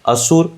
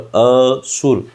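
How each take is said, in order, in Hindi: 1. पहला अक्षर बिना अतिरिक्त बल के बोला जाता है। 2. पहला अक्षर अतिरिक्त बल के साथ बोला जाता है। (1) "अगर जोर नहीं दे रहे हैं तो राक्षस" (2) "तो जोर दे रहे हैं तो फिर वहां पर क्या हो जाएगा, बिना सुर के"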